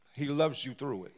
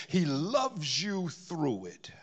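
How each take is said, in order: First: Said in the usual way. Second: Slow, tender whisper. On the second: Acted. Preacher assuring the congregation of God's love, slow whisper. Tender climax of sermon point.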